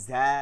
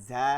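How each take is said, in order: Both takes have the same delivery.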